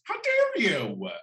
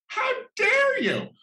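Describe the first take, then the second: First: Slow, higher mock-offended "How dare you?"; a touch of campy outrage, drawn out; milder echo of the earlier shriek; mock indignation. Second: Shrill, slow, much higher cry of outrage; hammed-up royal shriek of offense; mock-outraged Queen. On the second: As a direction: clutch your pearls, hammed-up indignant royal.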